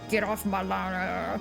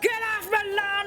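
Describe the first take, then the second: First: It is grumbled in a low mutter. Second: It is screamed loudly. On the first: "the angry, grumbly old man" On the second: "the one that loudly scream"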